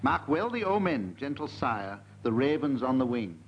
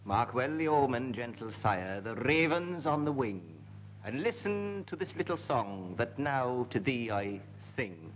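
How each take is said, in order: First: Lilting mock-Welsh bardic recital, slow; Welsh accent. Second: Lightly mock-Welsh recital, lower and softer; Welsh accent. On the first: Host reading the Welsh poem opening in a mock-Welsh lilt. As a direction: declaim it like a Welsh bard. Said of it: "Yours is a Welsh poem". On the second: Panellist continues the Welsh poem in a light Welsh lilt. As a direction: carry on the Welsh bard's verse, hushed. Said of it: "my accent has changed back".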